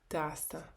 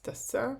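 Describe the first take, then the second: First: The stress is on the first syllable. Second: The stress is on the last syllable. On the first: This is how it is said in everyday speech. "в розмовній мові наголос падає на перший склад" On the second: This is the form required by grammar rules. "відповідно до правил граматики, треба ставити наголос"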